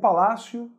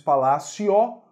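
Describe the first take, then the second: First: The final vowel sounds like a U. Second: The final vowel is a full O sound. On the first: The speaker calls it right. "O que a gente diz é o palácio" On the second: The speaker calls it wrong. "Você não diz palácio"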